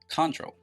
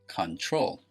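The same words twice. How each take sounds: First: The stress is on the first syllable. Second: The stress is on the second syllable. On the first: The speaker calls it wrong. "It is not pronounced control" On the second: The speaker calls it right. "The stress is on the second syllable"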